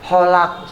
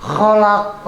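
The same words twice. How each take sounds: First: "Holak" opened on a smooth h, no throat scrape; plain h and unbounced ending in "Holak"; wrong plain h. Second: "kholak" with rasped kh and bounced final q; correct throaty kh. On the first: Teacher showing the mistake, smooth h in "Holak". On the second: Teacher correcting holak, throaty kh in "kholak". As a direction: scrape the start of "kholak", bounce its ending. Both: Shown as a demonstration. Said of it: "Holak salah nanti".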